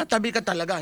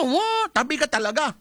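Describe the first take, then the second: First: Said in the usual way. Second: Mock yell. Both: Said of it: "pagka nagwangwang yan".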